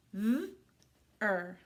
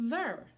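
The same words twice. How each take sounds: First: "Th-er" as buzzing th, gap, then er; sounding out. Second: Said in the usual way. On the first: Shown as a demonstration. Teacher doing second syllable, sounded out. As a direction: hold the th of "Th-er", then add er. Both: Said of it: "Let's do the second syllable".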